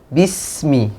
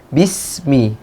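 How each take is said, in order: Both takes have the same delivery.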